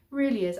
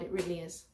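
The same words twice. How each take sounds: First: Really pushed louder with a falling tune; emphatic repeat. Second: Said in the usual way. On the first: Real, not acted. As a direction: say Really louder and firmer, landing down.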